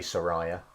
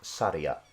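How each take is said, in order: First: It is said with a y sound, sa-ra-ya. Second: It is said as three syllables, sa-ri-a. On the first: The speaker calls it wrong. "It's not Saraya" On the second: The speaker calls it right. "It's Saria. Sa-li-a"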